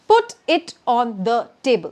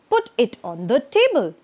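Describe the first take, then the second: First: Each word is said separately, without linking. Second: The words are linked together smoothly. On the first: The speaker calls it wrong. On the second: The speaker calls it right.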